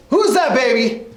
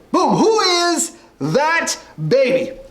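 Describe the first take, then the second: First: Said in the usual way. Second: Drawn-out host call, higher and slow; game show announcer. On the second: Acted. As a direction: stretch the catchphrase like a quiz host. Host announces the next baby.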